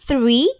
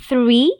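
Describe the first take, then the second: The two takes are said the same way.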